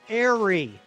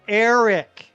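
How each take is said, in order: First: The final 'c' sound is left out. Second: The final 'c' sound is clearly pronounced. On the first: The speaker calls it wrong. "It sounds like I'm saying airy" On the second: The speaker calls it right. "I will speak louder and I will enunciate more for you"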